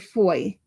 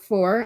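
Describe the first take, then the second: First: The word ends without an R sound. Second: The word ends with a clear R sound. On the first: The speaker calls it wrong. "I couldn't pronounce my R's when I was little" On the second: The speaker calls it right. "instead of four"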